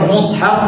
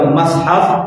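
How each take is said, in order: First: The first vowel is u. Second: The first vowel is a. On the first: "boleh kedua" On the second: "baca dengan fathah mushafi itu adalah gharib"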